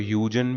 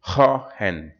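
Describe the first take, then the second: First: It is said as 'Hyoo-jen', with a middle 'j'. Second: It is said as 'Hoy-hen', with a middle 'h'. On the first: This is how some people say the name. "कुछ लोग इसको ह्यूजन भी बोलते हैं" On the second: This is the name's original Dutch pronunciation. "It's a Dutch name जिसको प्रोनाउंसिएशन इसका थोड़ा सा अजीब है"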